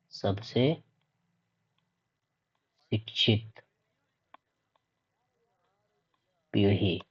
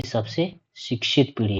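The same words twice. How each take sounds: First: Softer, with very long pauses between words; one word at a time, quietly spaced out; word-by-word dictation. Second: Said in the usual way. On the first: Real, not acted. Teacher repeating the key phrase for students, word by word.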